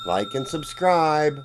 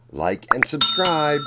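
First: Said in the usual way. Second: Emphatic sign-off. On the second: Real, not acted. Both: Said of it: "And remember".

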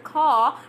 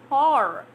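First: "car" ending on a long open vowel; R left silent. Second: "car" ending in a full R; R sounded. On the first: Teacher gives the form learners have not heard, "car" without R. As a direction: drop the R from "car". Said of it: "You have not heard car". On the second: Teacher gives the form learners have heard, "car" with R sounded. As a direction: lean on the final R of "car". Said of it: "because you have heard car". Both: Shown as a demonstration.

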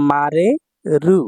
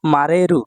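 First: মারেরু drawn out slowly, syllable by syllable, rising at the end; slow teaching repeat of মারেরু. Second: Said in the usual way. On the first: Shown as a demonstration. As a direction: stretch মারেরু so students catch each syllable. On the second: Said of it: "আর সাথে".

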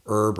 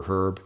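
First: Herb said as "erb"; silent H. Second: Herb with an audible H; sounded H. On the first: Repeating the first option for viewers, herb with silent H. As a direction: drop the H from herb. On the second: Repeating the second option for viewers, herb with sounded H. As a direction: pronounce the H at the front of herb. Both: Shown as a demonstration. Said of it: "whatever you say".

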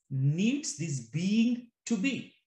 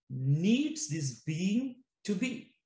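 No difference in how they are said.

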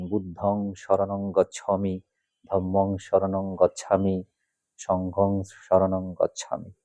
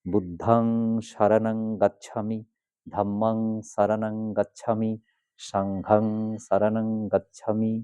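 First: বুদ্ধং শরণং গচ্ছামি with Bengali o vowels, slow; শরণং said shoronong, গচ্ছামি gochchhami; the way many read it from the book, slow and careful; common wrong pronunciation. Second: বুদ্ধাং শরণং গাচ্ছামি with open a vowels, slow; শরণং said saranang, সাংঘাং sangghang; careful model recitation of the corrected form; correct Pali pronunciation. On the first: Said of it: "অনেকে এভাবেই বলেন". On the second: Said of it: "কি দাঁড়ালো". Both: Shown as a demonstration.

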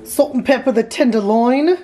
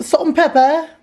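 First: Put-on botched British accent, no clear origin; strange accent. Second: Higher-pitched, put-on British "Salt and pepper"; better British accent. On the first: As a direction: attempt a British accent and miss. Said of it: "That was a strange accent". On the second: Shown as a demonstration. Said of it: "That's a little better".

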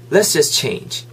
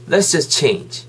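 No difference in how they are said.

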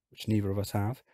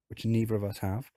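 No difference in how they are said.

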